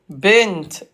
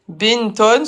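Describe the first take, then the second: First: The word ends on a bare t sound. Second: The word ends with an added -un sound. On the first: The word is said at the end of a sentence. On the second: The word is said in the middle of speech.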